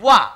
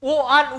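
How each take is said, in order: First: One gliding w sound starts the word. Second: Two separate vowel sounds start the word. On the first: The speaker calls it right. "দুটো একসঙ্গে করি ওয়া" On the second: The speaker calls it wrong. "ও আন উচ্চারণ করি না"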